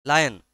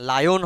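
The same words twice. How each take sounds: First: লায়ন said as "lajan", the right way; right pronunciation. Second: লায়ন said as "lajon", the wrong way; wrong pronunciation. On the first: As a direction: say লায়ন with an open a sound. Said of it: "উচ্চারণটা ... লায়ন হয় না, লায়ন". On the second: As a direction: say লায়ন with an o sound, as the mistake. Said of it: "উচ্চারণটা লায়ন হয় না". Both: Shown as a demonstration.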